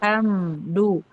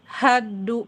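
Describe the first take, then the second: First: The m is pronounced fully and clearly. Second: The m merges completely into the d. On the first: "Itu kan idhar" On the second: "kalau idgham"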